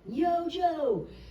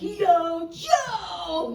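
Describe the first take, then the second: First: It is yelled at moderate loudness. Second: It is yelled very loudly.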